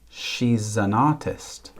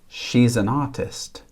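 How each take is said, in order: The two takes are said the same way.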